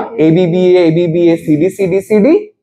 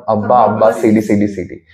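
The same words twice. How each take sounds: First: "এবিবিএ" spelled out as four letter names. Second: "আব্বা" read as one word, low; joking pronunciation. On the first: Shown as a demonstration. Teacher recalling a rhyme scheme, "এবিবিএ" said letter by letter. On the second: Retold or imitated. Recalling a student joke, "আব্বা" said as a word, not letters. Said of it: "আমরা তো মজা করে বলতাম".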